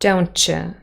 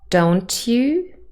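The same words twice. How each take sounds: First: The t and y sounds blend together. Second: The t and y sounds stay separate.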